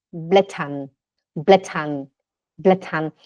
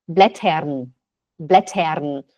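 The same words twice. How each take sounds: First: Blättern ending "-tan", r not heard. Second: Blättern with the r sounded, "BLE-tern"; Swiss pulled R. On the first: Teacher drilling students, Blättern said as "BLE-tan". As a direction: turn the ER of Blättern into an open A. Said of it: "que faz som de A?". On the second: Teacher showing husband's Swiss way, Blättern with pulled R. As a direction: sound the R clearly at the end of Blättern. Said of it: "O suíço puxa o R". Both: Shown as a demonstration.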